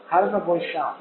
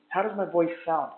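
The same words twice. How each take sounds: First: The voice is heard over background noise. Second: The voice is heard without background noise. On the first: "this is my voice with the Q C Y T one C with background noise on" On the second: "this is the mic test for the Q C Y T one C"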